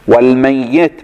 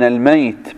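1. صوت الياء مشدد ويُمدّ أطول. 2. صوت الياء مفرد، بلا تشديد. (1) "والميت بالتشديد" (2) "الميت بالسكون"

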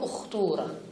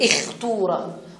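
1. الصائت الأول هو u، موافقًا للـ u الذي بعده. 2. الصائت الأول هو i، ثم يأتي u بعده. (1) "وإنما تقول" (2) "لا يناسب أن تنتقل من الكسر إلى الضم مباشرة فتقول"

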